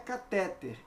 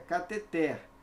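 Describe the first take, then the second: First: The stress falls before the last syllable. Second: The stress falls on the last syllable. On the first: The speaker calls it wrong. "não é catéter" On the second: The speaker calls it right. "é cateter"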